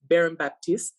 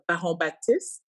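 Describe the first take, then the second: First: The name is said with an English accent. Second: The name is said with a French accent.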